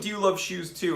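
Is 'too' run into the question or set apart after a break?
run in. The word 'too' runs straight into the question. Asks whether the listener also loves shoes. "It wasn't"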